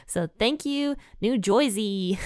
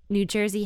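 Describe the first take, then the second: First: A quick jokey New Jersey impression; New Jersey accent. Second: Said in the usual way. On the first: Shown as a demonstration. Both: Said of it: "best interpretation of the New Jersey accent".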